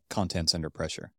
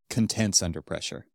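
First: The stress in 'contents' is on the first syllable. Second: The stress in 'contents' is on the second syllable. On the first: The can's contents are under pressure. The speaker calls it right. "it says like contents under pressure" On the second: The can becomes content when pressure is applied. The speaker calls it wrong. "He read it as contents under pressure"

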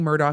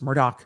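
First: The name is read as its letters suggest. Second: The name is said differently from its letters. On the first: This is a reading of the written name. The speaker calls it wrong. "I keep saying Murdaugh because that's how it's spelled" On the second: This is how the family says the name. The speaker calls it right. "but it's Murdaugh. That's how they pronounce it"

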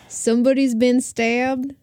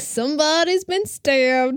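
First: A faint, weak Southern accent is used. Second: A heavy, exaggerated Southern accent is used. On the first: "That was a weak-ass Southern accent" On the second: "Because you're overdoing it"

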